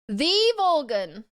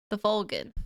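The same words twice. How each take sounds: First: Dramatic title voice. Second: Said in the usual way. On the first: Shown as a demonstration.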